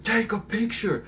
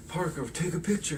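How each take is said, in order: First: Much higher, louder, slower jeer; bully yelling at Peter; mock bully taunt. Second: Said in the usual way. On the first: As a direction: shout the taunt in a put-on voice. Flash taunting Peter again.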